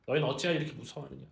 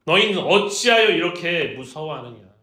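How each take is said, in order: First: Said in the usual way. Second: Loud, stern rebuke; scolding. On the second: Acted. Jesus rebuking his frightened disciples, loud scolding. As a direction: reprimand them at full voice. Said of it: "꾸짖기 시작해요".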